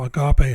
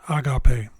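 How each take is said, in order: First: The stress is on the second syllable. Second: The stress is on the first syllable. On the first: "the second syllable should be stressed" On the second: "if the accentuation stressed the first syllable"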